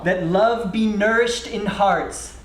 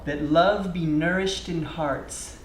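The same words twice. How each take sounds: First: It is said loudly and energetically. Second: It is said at ordinary speaking volume. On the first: "in a loud, energetic voice" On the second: "in a normal speaking voice"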